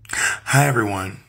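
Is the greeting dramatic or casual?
dramatic. It is said in a dramatic, gasping way.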